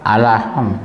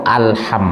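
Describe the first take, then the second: First: The h is a light, plain breath. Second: The h is a deep, throaty breath. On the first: The speaker calls it wrong. "Di mana salahnya?" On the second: The speaker calls it right. "Yang benar itu alham"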